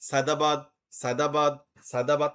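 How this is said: Each word ends in d, with a pause after it. The caller has to stop after each call. "প্রত্যেকবার ডাকার পর একটা pause"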